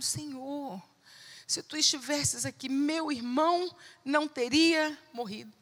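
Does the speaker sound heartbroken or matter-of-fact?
heartbroken. It sounds heartbroken and tearful.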